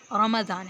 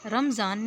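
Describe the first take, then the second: First: رمضان as "ramazan", with an open a after the m; رمضان said "ra-ma-zan", each vowel clear; right way. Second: رمضان as "ramzan", with the m and z run together, said louder; the common Urdu رمضان, "ramzan"; the wrong "ramzan" said the usual Urdu way. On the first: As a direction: correct Arabic رمضان, "ramazan". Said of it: "میم کے فتح اور زواد کے فتح کے ساتھ رمضان". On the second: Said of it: "رمضان نہیں ہے". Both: Shown as a demonstration.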